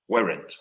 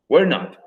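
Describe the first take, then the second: First: It is said as one contracted word. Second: It is said as two separate full words. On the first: "lo uniéramos en una sola palabra" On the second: "Es solamente agregarle not al ladito"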